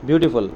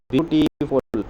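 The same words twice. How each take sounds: First: Said in the usual way. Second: ब्यूटीफुल said slowly, syllable by syllable; syllables spelled out. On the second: Shown as a demonstration. Teacher to students, sounding out ब्यूटीफुल slowly. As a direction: break ब्यूटीफुल into its beats for the class. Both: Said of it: "for example".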